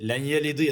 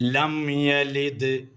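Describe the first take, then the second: First: The m merges into the y, no m heard. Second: The m is closed on the lips before yalid. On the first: The speaker calls it wrong. "ലയ്യലിദ് ലയ്യലിദ് എന്ന് പറയുന്നവരുണ്ട്. തെറ്റാണത്" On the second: The speaker calls it right. "മറിച്ച് ലം യലിദ്"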